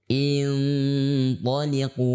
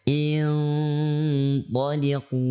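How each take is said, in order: The two takes are said the same way.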